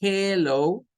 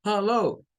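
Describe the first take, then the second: First: "hello" with a clear E, "heh-loh", higher pitched; E first vowel. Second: "hello" with an UH, "huh-loh", higher pitched; UH first vowel. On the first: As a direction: open "hello" on a distinct "heh". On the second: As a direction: open "hello" on "huh" instead of "heh". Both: Shown as a demonstration. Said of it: "¿Escuchan la diferencia?".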